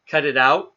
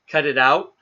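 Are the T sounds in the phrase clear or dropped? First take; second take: dropped; dropped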